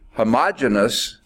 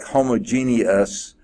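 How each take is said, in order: First: The word is said with one syllable dropped. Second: The word is said with all five syllables. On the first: "leaves out that E at the end" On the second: "covers all the syllables"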